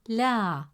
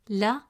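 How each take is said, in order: First: The vowel is stretched long. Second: The vowel is short. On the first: The speaker calls it right. "the presence of alif makes it la" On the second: The speaker calls it wrong. "Instead of pronouncing it as la"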